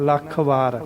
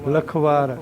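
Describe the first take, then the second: First: The first syllable is heavy and held. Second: The first syllable is light and run together. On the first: The speaker calls it right. "ਲੱਲੇ ਨੂੰ ਭਾਰਾ ਕਰਕੇ ਬੋਲਣਾ" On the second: The speaker calls it wrong. "ਲਖਵਾਰ ਨਹੀਂ ਕਹਿਣਾ"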